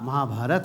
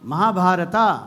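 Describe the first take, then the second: First: The word ends on the consonant 't'. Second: The word ends with an added final 'a' vowel. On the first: The speaker calls it right. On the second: The speaker calls it wrong.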